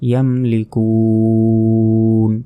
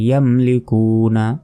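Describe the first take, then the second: First: The word ends on a consonant after a long vowel. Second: The word ends with a short vowel. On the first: The reader stops at this word. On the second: The reading continues without stopping.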